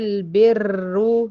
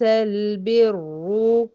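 First: The r sound is trilled with repeated taps. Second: The r sound is single with no trill. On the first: The speaker calls it wrong. "لو اتكررت هقولي البر" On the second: The speaker calls it right. "بدون اي تكرار"

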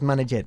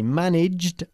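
First: The ending -ed is said as an extra syllable. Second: The ending -ed is said as a plain d sound. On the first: The speaker calls it wrong. "¿por qué no decimos managed?" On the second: The speaker calls it right. "Porque el verbo manage no acaba ni en un sonido de T y ni de D"

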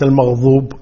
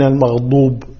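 First: The emphatic consonant is pronounced as ẓ (ظ). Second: The emphatic consonant is pronounced as ḍ (ض). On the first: The speaker calls it wrong. "وليس المغضوب" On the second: The speaker calls it right. "المغضوب بالضاد"

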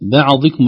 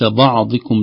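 First: The b and ain sounds are light and thin. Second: The b and ain sounds are heavy and emphatic. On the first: The speaker calls it right. "ترقيق الباء والعين" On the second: The speaker calls it wrong. "وليس"

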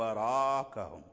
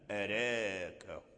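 First: The vowel after r is fully open and heavy. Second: The vowel after r leans slightly toward e. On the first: "هذا وجه الفتح، بفتح الراء وتفخيمه" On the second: "هذا هو وجه الإيمان"

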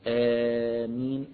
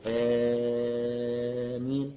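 First: The first vowel is held for four counts. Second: The first vowel is held for six counts. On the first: "أربع حركات" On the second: "ستة حركات"

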